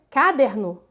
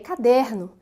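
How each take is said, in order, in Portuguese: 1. A sílaba tônica não está na sílaba do meio. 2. A sílaba tônica está na sílaba do meio. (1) "Eu vou deslocar a sílaba tônica ... fica diferente" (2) "vejam bem, é caderno"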